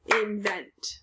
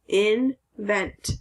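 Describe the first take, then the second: First: Soft breathy whisper of Invent, no voice; whispered repeat. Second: Said in the usual way. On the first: Shown as a demonstration. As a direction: whisper the word Invent back.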